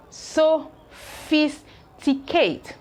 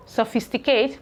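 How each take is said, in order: First: Sophisticate split slowly, so-phis-ti-cate; teacher stretching out sophisticate; slow syllable pairing. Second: Said in the usual way. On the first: Shown as a demonstration. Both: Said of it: "So let's continue".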